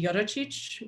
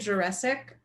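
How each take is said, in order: First: The surname is said with its original Slovenian sounds. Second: The surname sounds like the English word Jurassic. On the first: This is the original form of the name. The speaker calls it right. "So it should be Joracic, which means son of George" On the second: This is how the family says it now. The speaker calls it wrong. "So I say it Jurassic, but that's basically wrong in every single way"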